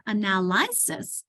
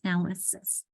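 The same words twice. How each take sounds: First: "analysis" slowly misread as "uh-nal-EYE-sis"; long I in ANALYSIS. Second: Said in the usual way. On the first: Shown as a demonstration. Teacher showing what it's not, "analysis" with long "eye". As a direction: wrongly stretch the third vowel of "analysis" to "eye". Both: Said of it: "it's more of a I".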